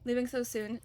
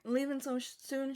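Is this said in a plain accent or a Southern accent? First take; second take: plain; Southern. First: It is said in the speaker's plain accent. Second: It is said in a Southern accent.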